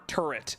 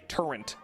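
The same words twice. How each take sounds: First: The word is said without an added N sound. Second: The word is said with an added N sound.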